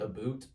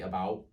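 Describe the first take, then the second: First: The vowel sounds like the one in 'boot'. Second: The vowel sounds close to the one in 'out'. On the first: This is the stereotyped pronunciation. "I don't say about" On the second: This is how the speaker actually says it. "I say about, which I, I mean is still a little weird"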